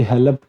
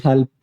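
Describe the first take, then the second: First: हेल्प with an extra vowel, "he-lap"; wrong local pronunciation. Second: हेल्प as one syllable; corrected pronunciation. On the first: Teacher showing Hindi medium students' error, हेल्प as "he-lap". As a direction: break हेल्प into two syllables, "hel-ap". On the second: Teacher correcting Hindi medium students, हेल्प in one syllable. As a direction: close l straight onto p in हेल्प. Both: Shown as a demonstration. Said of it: "हेल्प नहीं".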